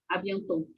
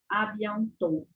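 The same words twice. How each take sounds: First: The word ends with an audible final t sound. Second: The word ends on the vowel, no final t. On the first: The speaker calls it wrong. "eu não pronuncio abiantou, abiantou" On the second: The speaker calls it right. "Presta atenção que eu falo abiantou, abiantou. Eu paro no último O"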